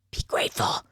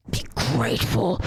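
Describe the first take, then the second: First: Breathy whispered rebuke; whispered be grateful; whispered scold. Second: Much lower, firm rebuke; deep stern be grateful; low growled scold. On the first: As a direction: hiss it with a sigh. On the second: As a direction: drop the voice and scold him. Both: Real, not acted. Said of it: "scolding game character".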